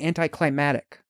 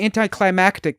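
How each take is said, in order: First: No k sound comes before the final syllables. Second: A k sound comes before the final syllables. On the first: "they say anticlimatic" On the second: "sometimes people don't say anticlimactic"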